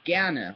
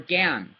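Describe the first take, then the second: First: The word ends with a final vowel sound. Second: The word ends without a final vowel sound. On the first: "You want to say it with an E, you can" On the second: "If you don't, you don't have to"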